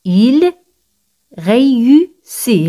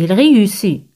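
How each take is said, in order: First: "Il ... réussit", very slow, in separate syllables; slow repeat-after-me. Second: Said in the usual way. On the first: Shown as a demonstration. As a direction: pause after "Il", then draw out "réussit". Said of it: "Repetid conmigo".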